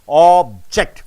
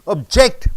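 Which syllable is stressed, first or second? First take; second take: first; second. First: The stress is on the first syllable. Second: The stress is on the second syllable. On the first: It names a thing. "When you stress on ob, it becomes noun" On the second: It means to protest or oppose. "When you stress on ject, it becomes objecting"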